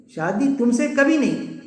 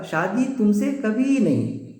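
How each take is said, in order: First: Slow, higher-pitched mock refusal; understated anger, falling at the end; mildly angry refusal. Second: Slow, drawn-out mock refusal that means yes; stretched-out, lightly acted coy refusal; teasing agreement. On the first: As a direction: turn down the proposal with mild indignation. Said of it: "غصے کی حالت میں". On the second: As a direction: say no as if agreeing, like a TV advert. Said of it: "اس میں agri ہے".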